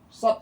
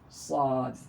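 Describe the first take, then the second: First: The vowel is short, not lengthened. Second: The vowel is long, with a bouncing final d. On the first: The speaker calls it wrong. "Kalau dibaca sod saja berarti nggak panjang, dia salah juga" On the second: The speaker calls it right. "Kemudian dia panjang... Qalqalah dal itu harus terdengar"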